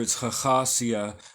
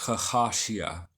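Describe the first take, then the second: First: The last consonant is an s sound. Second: The last consonant is an sh sound. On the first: This is the form found throughout the literature. "throughout the literature" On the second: This is one author's variant form. "the letter Shin in Hebrew could also be pronounced as a Sheen"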